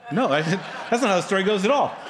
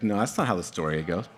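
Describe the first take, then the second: First: Fast, higher protest breaking into laughter; laughing denial. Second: Low objection with a chuckle; mildly mock protest, kept low; amused objection. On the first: Real, not acted. Preacher rejecting his fake ending, laughing and emphatic. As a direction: laugh while firmly setting it straight. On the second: Voicing listeners who doubt the story, amused and low.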